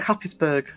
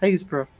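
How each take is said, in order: First: The name is said as it is spelled. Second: The name is said as 'Haysborough', without 'p'. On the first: The speaker calls it wrong. "It looks like Happisburgh" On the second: The speaker calls it right. "That is actually pronounced Haysborough"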